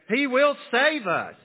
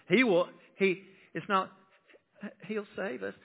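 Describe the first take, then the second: First: The word will is said fully and emphasized. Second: The word will is reduced and unstressed. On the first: The speaker calls it right. "I like to put the emphasis on that last as a declaration" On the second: The speaker calls it wrong.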